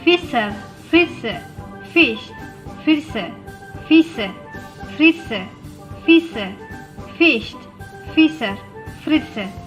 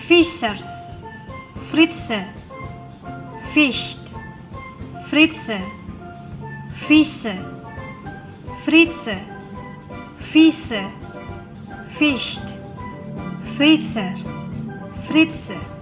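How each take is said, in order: First: It is said at a fast pace. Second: It is said at a slow, careful pace. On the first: "Lebih cepat lagi" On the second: "kalian ikutin saya ya"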